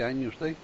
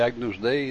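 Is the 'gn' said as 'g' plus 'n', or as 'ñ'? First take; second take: ñ; g plus n. First: The gn is said as one ñ sound. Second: The gn is said as separate g and n. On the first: "dice agnus dei" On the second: "En vez de agnus dei"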